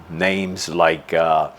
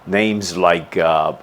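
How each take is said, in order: Both takes have the same delivery.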